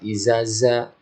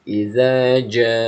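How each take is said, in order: First: Both consonants are pronounced as z. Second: The first consonant is z, the second j. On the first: The speaker calls it wrong. "ada yang baca izaza" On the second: The speaker calls it right. "pakai huruf j, ja"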